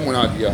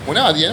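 First: The word ends with a long 'a' vowel. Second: The word ends with the nunation sound 'an'. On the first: The speaker stops on this word. "إذا وقفت تقول مناديا" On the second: The word is said in running speech. "مناديا منون"

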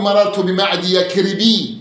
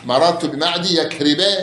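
First: The last word ends with an added i vowel. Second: The last word has no added i vowel. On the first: The name is wrongly treated as a declinable noun. The speaker calls it wrong. "ما تقول" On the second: The name is treated as a diptote. The speaker calls it right. "لا مررت بمعدي يكرب"

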